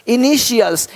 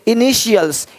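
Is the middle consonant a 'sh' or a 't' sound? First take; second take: sh; sh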